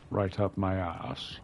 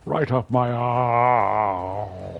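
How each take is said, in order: First: Said in the usual way. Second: Very slow, louder, drawn-out Herselbo dialect. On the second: Shown as a demonstration. Telling his thralls off in made-up Herselbo dialect, drawn out and loud. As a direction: stretch every word out in the Herselbo dialect. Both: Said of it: "That's how you say it in Herselbo".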